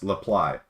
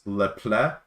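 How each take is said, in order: First: The name ends with 'ply', as in reply. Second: The name ends with a soft 'pull' sound. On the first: The speaker calls it right. "kind of like reply" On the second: The speaker calls it wrong.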